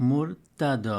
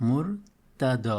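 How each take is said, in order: No difference in how they are said.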